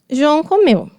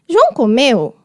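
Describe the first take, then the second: First: The voice falls at the end. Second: The voice rises at the end. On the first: It is a statement. "É uma afirmativa" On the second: It is a question. "é uma interrogativa... esse eu, que ele sobe"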